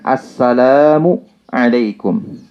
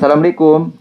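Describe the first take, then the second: First: The words are articulated carefully and distinctly. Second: The words are slurred together carelessly. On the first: The speaker calls it right. "Salam itu kita mengucapkan assalamu alaikum" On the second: The speaker calls it wrong. "Bukan assalamualaikum. Nggak ada dalam bahasa"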